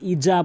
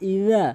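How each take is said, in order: First: The middle consonant is a z sound. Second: The middle consonant is a soft th sound. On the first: The speaker calls it wrong. "ইজা বলবেন না" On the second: The speaker calls it right. "ইদা হাসাদে বলবেন"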